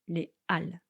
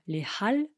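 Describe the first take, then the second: First: No H sound is heard before 'Halles'. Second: An H sound is heard before 'Halles'. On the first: The speaker calls it right. "on ne le prononce pas" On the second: The speaker calls it wrong. "On ne dit pas"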